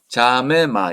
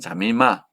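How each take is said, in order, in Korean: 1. 첫 번째 m 뒤에 e 모음이 들려요. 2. 첫 번째 m 뒤에 i 모음이 들려요. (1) "이렇게 발음을 해야 되고" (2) "또 자미마도 됩니다"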